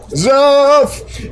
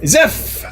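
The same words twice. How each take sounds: First: High, loud, long-held name call; playfully loud shout. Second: Sudden high-pitched exclamation; excited name call. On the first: Pretend. Streamer playfully greeting a viewer after apologizing, drawn-out shout. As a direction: belt out the name, stretching it. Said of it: "Sorry that was so loud". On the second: Real, not acted. Streamer spotting a viewer's name in chat, excited call. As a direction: burst out brightly with the name, short. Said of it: "I was very excited to say that name".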